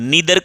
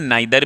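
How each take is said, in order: First: The first vowel sounds like 'ee'. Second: The first vowel sounds like 'eye'. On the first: "नीदर को हम नाइदर भी बोलते हैं" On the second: "ध्यान रखेंगे दोनों सही है"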